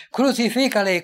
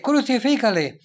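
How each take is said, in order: First: Loud, higher "Crucifícale" flung out by the mob; crowd cry. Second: Loud, higher "crucifícale" repeated by the mob; crowd cry. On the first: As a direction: call "Crucifícale" as an angry crowd demanding death. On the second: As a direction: hammer "crucifícale" again as the mob. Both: Acted.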